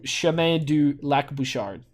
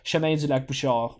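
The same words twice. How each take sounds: First: It is said with an English accent. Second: It is said with a native French accent. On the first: The speaker calls it wrong. "keeping my sort of English accent" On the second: The speaker calls it right. "which is how I actually speak in French"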